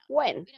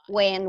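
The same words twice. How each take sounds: First: It starts with a breathy h before w. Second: It starts with a plain w, no h. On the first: The old way of saying it. "Ya no decimos what o when" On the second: The way it is said today. "ahora nada más decimos"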